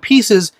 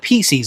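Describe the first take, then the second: First: The word is said in its usual way. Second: The word's ending is made to match 'Reese's'. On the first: The speaker calls it right. "they turn pieces into" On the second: The speaker calls it wrong. "change the word pieces because of Reese's ... and they're wrong"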